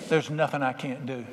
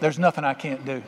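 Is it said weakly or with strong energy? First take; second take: weakly; strong energy. First: It is said weakly, without much energy. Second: It is said forcefully, with strong energy.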